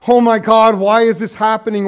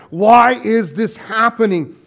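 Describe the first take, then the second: First: Loud anguished cry to God; retold cry. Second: Slower, loud lament; retold cry. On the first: Pastor voicing Irma's cry, loud anguish. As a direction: cry it out as a grieving widow. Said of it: "she'd cry out". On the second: Pastor voicing Irma again, slow loud lament. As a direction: stretch out the anguished why. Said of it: "kind of thing that she would begin with".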